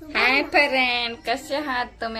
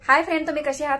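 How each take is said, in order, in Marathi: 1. ते सपाट आवाजात, फारशा उत्साहाशिवाय म्हटले आहे. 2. ते उत्साहाने, जिवंत उत्साहासह म्हटले आहे. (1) "असं नाही बोलायचं" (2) "असं जोस मध्ये बोलावं लागतं"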